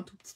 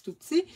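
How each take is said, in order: First: Said in the usual way. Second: "tout petits" jumps up high and louder; "tout petits" squeaked up high for tininess; tiny, said high. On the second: Real, not acted. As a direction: lift "tout petits" up high to show how small. Repeating tiny to stress it.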